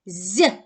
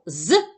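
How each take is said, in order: First: «з» as a soft, palatalized zʲ; soft consonant. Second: «з» as a short, hard z; hard consonant. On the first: Teacher showing pupils the other sound, soft «з». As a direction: soften «з» with the tongue raised. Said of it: "звук може бути м'який". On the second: Teacher reminding pupils of the sound, hard «з». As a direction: say «з» hard, without softening. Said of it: "твердий". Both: Shown as a demonstration.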